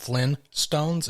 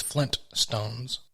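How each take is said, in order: First: "Flynn Stones" said with no T, like Flynn; "Flynn Stones" as Flynn plus Stones, no T sound; wrong pronunciation. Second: "Flint Stones" with a clear T in Flint; "Flint Stones" slowly, Flint and Stones split apart; correct pronunciation. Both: Shown as a demonstration. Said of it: "has two T's and not just one".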